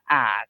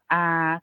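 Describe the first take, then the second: First: The pitch stays low. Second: The pitch stays level in the middle. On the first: "siang ek atau low tone kita sebutnya a" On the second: "siang saman atau middle tone yang kita sebutnya a"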